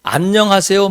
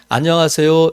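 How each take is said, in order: First: The voice rises at the end, as a question. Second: The voice falls at the end, as a blessing.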